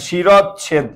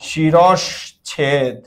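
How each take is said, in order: First: The middle has a plain 'chh' sound without 'sh'. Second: The middle has an 'sh' sound before the 'chh'. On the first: The speaker calls it wrong. "শিরচ্ছেদ বলা যাবে না" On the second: The speaker calls it right. "শব্দটা ছিল শিরশ্ছেদ"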